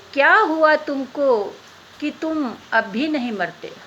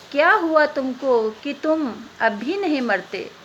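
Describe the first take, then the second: No difference in how they are said.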